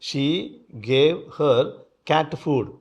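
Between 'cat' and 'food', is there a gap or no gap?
no gap. 'Cat' and 'food' run together without a gap. She gave cat food to another woman.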